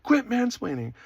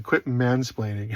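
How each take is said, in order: First: Retold yell. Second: Said in the usual way. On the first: Girlfriend snapping at boyfriend for mansplaining, mock yell. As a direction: imitate an indignant, high-pitched scolding. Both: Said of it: "she yelled at me one time".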